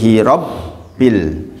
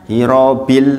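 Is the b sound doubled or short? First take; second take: doubled; short. First: The b sound is doubled and pressed. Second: The b sound is short and unpressed. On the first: The speaker calls it right. "tapi hirobil" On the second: The speaker calls it wrong.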